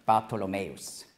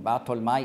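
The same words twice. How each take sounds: First: "Bartholomäus" with an added o and -äus ending; Greek-style "Bartholomäus", ending on s; Greek form. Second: "Bartholmai" in three syllables, ending in -mai; Aramaic form. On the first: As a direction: say "Bartholomäus" as bar-to-lo-MÄ-us. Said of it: "die griechische Aussprache von Bartholmai ist dann". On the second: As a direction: say "Bartholmai" as bar-tol-MAI, no Greek ending. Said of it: "die griechische Aussprache von Bartholmai". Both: Shown as a demonstration.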